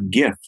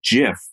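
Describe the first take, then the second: First: The word starts with a hard g sound. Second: The word starts with a soft j sound. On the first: "like giddy" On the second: "like jelly"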